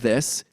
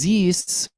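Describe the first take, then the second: First: It begins with a th sound. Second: It begins with a z sound. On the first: The speaker calls it wrong. "instead of this" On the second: The speaker calls it right. "or is this"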